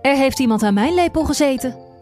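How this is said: The voice is moderately deep. The middle-sized character is speaking. "zei met zijn middelmatig zware stem"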